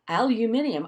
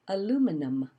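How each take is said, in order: First: The word is said with five syllables. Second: The word is said with four syllables.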